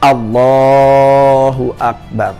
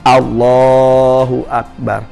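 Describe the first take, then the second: No difference in how they are said.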